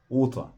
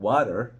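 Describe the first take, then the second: First: "water" as long rounded waw-tuh, no r; British water. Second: "water" with a flapped t and an r, warer; American-style "water", tapped middle t. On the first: Teacher modelling British "water" for learners. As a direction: stretch the first vowel of "water" and drop the r. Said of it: "خدت بالك من water؟". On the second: Teacher contrasting the American "water" with the British one. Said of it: "الأصوات بتتغير حسب اللكنات". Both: Shown as a demonstration.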